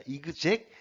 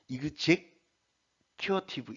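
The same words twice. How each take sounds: First: 이그제큐티브 said quickly, rising at the end; quick 이그제큐티브 with a rising tune; pronunciation demo. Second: 이그제큐티브 said with a smooth linked flow; 이그제큐티브 run together, syllables linked; pronunciation demo. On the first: Teacher repeats 이그제큐티브 briskly with a rise. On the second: Teacher shows linked 이그제큐티브 to students. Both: Shown as a demonstration. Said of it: "이런 식으로 들어가야 됩니다".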